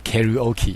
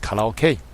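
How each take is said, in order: First: The word has an American English pronunciation. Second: The word has a Japanese pronunciation. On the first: "We say karaoke in the United States" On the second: "Japanese pronunciation is karaoke"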